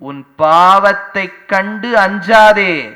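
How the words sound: It is said in a stern, threatening way. The listener is frightened rather than comforted. The speaker calls it wrong. "இப்படி மிரட்டி மிரட்டி அனுப்புறாரே"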